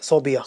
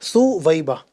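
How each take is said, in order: First: It is said as so-bi-ya. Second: It is said as su-wai-ba. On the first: The speaker calls it wrong. "कुछ लोग इसको सोबिया भी पढ़ते हैं" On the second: The speaker calls it right. "सही तलफ़्फ़ुज़ जो है वो है सुवैबा"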